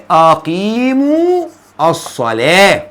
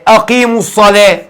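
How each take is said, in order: First: Very slow, long vowel in أقيموا; word-by-word teaching recitation; drawn-out repeat. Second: Said in the usual way. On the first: Shown as a demonstration. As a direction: stretch أقيموا out, then pause before الصلاة. Repeats verse slowly to show ending. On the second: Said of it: "ربنا بيقول لك إيه".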